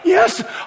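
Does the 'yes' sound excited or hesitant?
hesitant. The word is said with doubtful hesitation. He was unsure you would make it. The speaker calls it wrong. "Not like"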